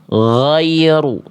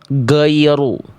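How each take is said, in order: First: The first sound is a smooth, flowing gh. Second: The first sound is a stopped, hard g. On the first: The speaker calls it right. "yang tepat adalah yang D" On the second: The speaker calls it wrong. "suaranya tidak mengalir, jadi kayak huruf G"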